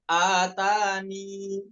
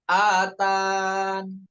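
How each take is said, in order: First: The word ends with a final 'i' vowel. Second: The word ends on the 'n' sound. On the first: "Pertama dengan mengisbat ya, dengan dibaca huruf ya tadi, inilah cara yang lebih diutamakan" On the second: "dihapus huruf ya-nya, ya, ketika wakof nun"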